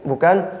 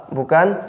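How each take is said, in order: Both takes have the same delivery.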